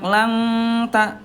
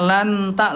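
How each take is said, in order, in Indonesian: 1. Huruf n memiliki dengung sengau yang panjang dan berat. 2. Huruf n diucapkan dengan jelas tanpa dengung sengau. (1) "yang kedua itu dengungnya banyak" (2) "yang ke satu itu idhar, ya lanta langsung didekatkan"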